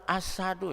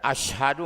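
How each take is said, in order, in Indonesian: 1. Konsonan tengahnya bunyi 's' biasa. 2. Konsonan tengahnya bunyi 'sh'.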